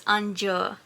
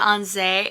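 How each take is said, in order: First: The second syllable sounds like 'joo'. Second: The second syllable sounds like 'zee'. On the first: The speaker calls it right. "it's Anju" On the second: The speaker calls it wrong. "instead of Anze"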